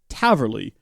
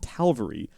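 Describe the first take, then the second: First: The L sound comes after the V. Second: The L sound comes before the V. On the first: The speaker calls it right. "It's actually spelled Taverley" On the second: The speaker calls it wrong. "I think I've said it wrong my entire life"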